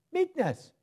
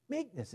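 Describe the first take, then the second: First: Meekness sung out high, then falling. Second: Meekness repeated softer, falling gently; soft echo. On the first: Preacher ending the Galatians verse, meekness high. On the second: Preacher echoing the key word to the women, softly. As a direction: let Meekness drop and linger. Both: Shown as a demonstration.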